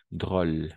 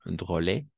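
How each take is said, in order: First: "drôle" as one syllable, drol; silent final E. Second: "drôle" misread as DRO-lay; wrong sounded E. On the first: Teacher correcting learners, "drôle" with the final e silent. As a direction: stop "drôle" on the l, no vowel after it. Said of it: "La E al final no pronunciamos". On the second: Teacher showing learners the mistake, "drôle" with final e sounded. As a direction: say "drôle" in two syllables, voicing the final e. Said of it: "no pronunciamos dro". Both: Shown as a demonstration.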